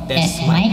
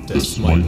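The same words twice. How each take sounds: First: The voice is processed into a troll-like sound. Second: The voice is processed into a devil-like sound. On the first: "parang troll, troll na boses" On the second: "yung devil, ano, voice"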